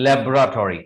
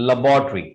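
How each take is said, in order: First: Laboratory said as "LEB-ra-tori"; British pronunciation. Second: Laboratory said as "luh-BAW-tree"; second pronunciation. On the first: Teacher giving the first accepted form, labelled British. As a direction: say laboratory slowly with a full "tori" ending. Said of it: "This is British pronunciation of this word". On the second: Teacher giving the second accepted form, carefully modelled. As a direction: stress BAW in laboratory, short "tree" ending. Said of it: "the second pronunciation of this word is". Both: Shown as a demonstration.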